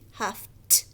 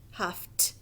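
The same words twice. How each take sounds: First: The ending is a short T sound. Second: The same.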